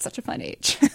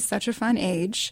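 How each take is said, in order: First: It is said brightly, with cheerful enthusiasm. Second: It is said flatly, with no inflection. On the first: The age is sincerely delightful. "the way that it was always said was, oh, 18 months, that's such a fun age" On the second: No hidden attitude is given away. "I always say it straight away because I don't want to have any inflection"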